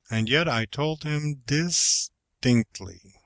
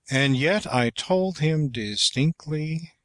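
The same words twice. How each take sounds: First: "and yet I told him distinctly" slower, leaning on "yet"; varied inflection. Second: "And yet I told him distinctly" with a higher lift on "yet"; inflection on the last syllables. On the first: Teacher's second try at the sentence, slow and pressing "yet". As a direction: draw it out slowly and press on "yet". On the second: Elocution teacher showing how to inflect the sentence, stress on "yet". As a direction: lift "yet" high and let "distinctly" fall away. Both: Shown as a demonstration. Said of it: "Try this sentence in several ways".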